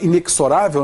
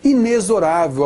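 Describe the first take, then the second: First: The x is pronounced like ks. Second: The x is pronounced like z. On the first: The speaker calls it wrong. "muita gente fala inexorável" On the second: The speaker calls it right. "na realidade é inexorável a pronúncia dele. Então o fonema Z aí"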